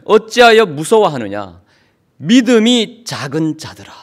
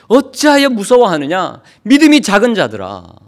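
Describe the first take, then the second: First: Firm, slow reproach; stern rebuke. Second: Louder, higher thundering scolding; loud rebuke. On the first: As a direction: rebuke them steadily, weighing each word. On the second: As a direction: scold the fearful disciples at full voice. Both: Acted. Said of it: "큰 소리로 호통을 치십니다".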